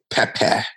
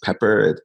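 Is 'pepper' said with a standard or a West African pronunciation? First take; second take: West African; standard. First: The word has a West African pronunciation. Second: The word has a standard English pronunciation. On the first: It carries a visceral, hot edge. "it doesn't have the visceral edge of pepper" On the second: It lacks a strong, hot edge. "if you say something is pepper"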